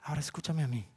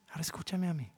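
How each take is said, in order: First: Softer, low and firm; quiet firm. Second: Quiet firm. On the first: Pastor voicing God asking to be heard, softer and firm. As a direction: speak it as God calling for attention. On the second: Pastor repeating God's request, even softer. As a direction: let it settle, barely raised. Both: Acted.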